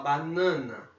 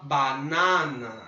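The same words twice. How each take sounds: First: The nasal A is pronounced closed. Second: The nasal A is pronounced open. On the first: The speaker calls it right. "a gente fala banana. Então a gente vai fechar esse A" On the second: The speaker calls it wrong. "a gente não fala banana"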